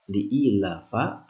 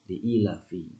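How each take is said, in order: First: The word ends with an a vowel. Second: The word ends with an i vowel. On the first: The speaker calls it wrong. "tidak boleh dibaca" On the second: The speaker calls it right. "wajib dibaca"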